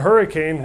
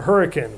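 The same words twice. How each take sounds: First: The word is said the standard way. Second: The word is said the local Utah way. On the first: "spelled Hurricane" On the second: "We pronounce it Hurricane"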